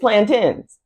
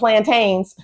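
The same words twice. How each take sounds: First: The word is pronounced differently from its spelling. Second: The word is pronounced just as it is spelled. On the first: The speaker calls it right. "It is plantains" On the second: The speaker calls it wrong. "plantains is not pronounced as it is spelled. We're not coming up here talking about"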